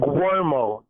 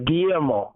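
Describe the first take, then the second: First: The name begins with a 'gwer' sound. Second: The name begins with a 'gee-yer' sound. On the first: The speaker calls it wrong. "You pronounce it like G W, like Guermo" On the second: The speaker calls it right. "gi year mo, you'll be saying it more correctly"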